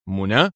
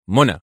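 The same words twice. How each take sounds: First: "منى" as a puzzled question. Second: "منى" as a firm one-word answer; stern. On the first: General repeats the unknown name, "منى" in confusion. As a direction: echo "منى" questioningly, mildly bewildered. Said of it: "وهو يغمغم في حيرة". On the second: Agent names his captive colleague, "منى" said sternly. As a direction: state "منى" firmly, no question. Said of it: "أجابه أدهم في صرامة". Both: A narrator's reading.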